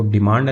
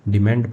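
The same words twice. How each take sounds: First: डिमांड with a long open "aa" in the second syllable, "di-MAAND"; डिमांड rhyming with "wand", as a mistaken example; mispronounced डिमांड. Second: डिमांड with a front "e" in the second syllable, "di-MEND"; डिमांड with "mend" as its second syllable, modelled for learners; corrected pronunciation. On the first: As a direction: say डिमांड as "di-maand", the wrong reading. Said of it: "इसको डिमांड नहीं पढ़ते हैं". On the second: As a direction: say डिमांड as "di-mend", the taught reading. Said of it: "डिमांड पढ़ते हैं". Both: Shown as a demonstration.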